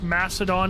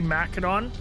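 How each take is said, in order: First: The c is said as a soft s sound. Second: The c is said as a hard k sound. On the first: The usual modern pronunciation. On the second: The original ancient pronunciation.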